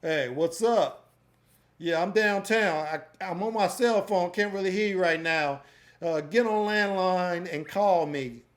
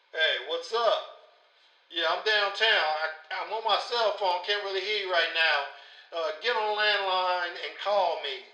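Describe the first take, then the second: First: Said in the usual way. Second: Thin voice as if through a phone line; telephone vocal. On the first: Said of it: "another one called telephone vocal". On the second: Shown as a demonstration. Tutor plays the mock call through the telephone preset. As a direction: make it sound like a cell phone call. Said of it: "make your voice sound like you're on the telephone".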